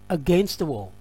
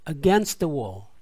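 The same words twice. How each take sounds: First: It is said at a faster pace. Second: It is said at a slower pace.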